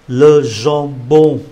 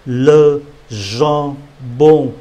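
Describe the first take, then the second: First: Said in the usual way. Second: "le jambon" drawn out slowly; slow model word. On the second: Shown as a demonstration. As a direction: stretch "le jambon" syllable by syllable. (đọc chậm "le jambon")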